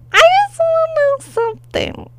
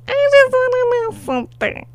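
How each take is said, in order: First: Squeaky high demand; high-pitched. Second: Quick high-pitched repeat; high and fast. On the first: High falsetto demand repeated. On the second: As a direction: rush it out up high. Repeated faster, still high. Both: Real, not acted.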